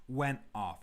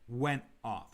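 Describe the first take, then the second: The two takes are said the same way.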